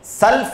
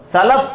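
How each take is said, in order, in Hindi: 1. ल की आवाज़ के बाद कोई स्वर नहीं आता। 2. ल और फ़ की आवाज़ों के बीच एक स्वर आता है। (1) "सल्फ नहीं कहना है" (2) "बल्कि सलफ कहना है"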